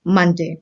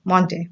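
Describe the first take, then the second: First: मंडे with short a as in sun, mun-day; मंडे said mun like gun; correct Monday. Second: मंडे with o as in on, mon-day; मंडे said the wrong way, mondey; wrong Monday. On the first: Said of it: "इसकी सही pronunciation है". (मंडे को "मन" की तरह बोलना) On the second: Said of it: "तो ये गलत प्रोनाउंसिएशन है". (मंडे को "ऑन" वाली ओ से बोलना) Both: Shown as a demonstration.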